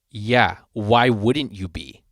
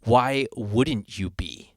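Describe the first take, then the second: First: Slow, drawn-out condescending reply; retold deadpan put-down. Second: Very slow, exaggeratedly drawn-out question; dramatic reenactment. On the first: Sound guy answering the singer's mic check, slowly condescending. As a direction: imitate him, stretching out the question. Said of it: "he said it just like that". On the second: Bandmate re-enacting the sound guy's reply, dramatically slow. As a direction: imitate him, dragging out every word. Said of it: "dramatic reenactment".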